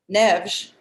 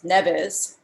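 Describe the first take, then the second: First: The name is said with Portuguese pronunciation. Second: The name is said with American pronunciation.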